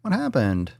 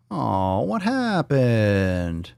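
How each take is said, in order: First: Said in the usual way. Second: Very slow, stretched-out whine; long, moaning "what happened"; drawn-out mock dismay. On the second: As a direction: drag the words out in playful disappointment. Stretched mock dismay at failed button.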